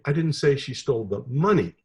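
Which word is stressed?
money. The stress is on the word money.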